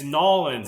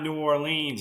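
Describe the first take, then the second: First: The name is squeezed into two short syllables. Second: The name is said fully with every syllable. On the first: This is how locals say it. The speaker calls it right. "It's Nolans" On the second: This is how outsiders say it. The speaker calls it wrong. "It's not New Orleans. You got to get it right"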